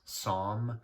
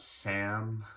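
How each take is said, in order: First: The vowel is long and open, as in psalm. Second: The vowel is short and flat, as in Sam. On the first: The speaker calls it right. "it's Psalm. A lot of people like to say like the Bible Psalm" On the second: The speaker calls it wrong. "it's not not Sam"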